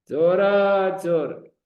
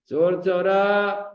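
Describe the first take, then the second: First: The first word is drawn out. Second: The second word is drawn out.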